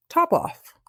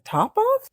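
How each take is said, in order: First: Higher, falling two-word answer; matter-of-fact announcement. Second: High, sharply rising question; incredulous echo. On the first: Cat telling mouse the baby's name, high and sure. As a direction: toss out the odd name as settled fact. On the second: Mouse questioning cat's odd baby name, high and baffled. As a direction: echo the name as if it can't be right. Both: Acted.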